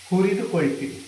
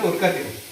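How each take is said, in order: First: The verb is said in its full, unshortened form. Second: The verb is said in a clipped, shortened form. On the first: The speaker calls it right. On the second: The speaker calls it wrong.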